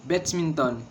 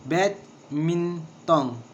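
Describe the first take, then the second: First: Said in the usual way. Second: Badminton drawn out very slowly as bad-min-ton, first beat stressed; very slow, each syllable apart. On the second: Shown as a demonstration. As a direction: spell badminton out slowly in beats. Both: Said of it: "and three syllable".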